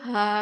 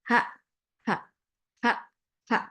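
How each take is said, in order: First: The laugh flows continuously without any gaps. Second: The laugh comes in separate bursts with gaps. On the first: This is a continuous laugh. "ketawa kontinu tuh ... nempel nggak ada jedanya" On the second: This is a discrete laugh. "kalau ketawa diskrit"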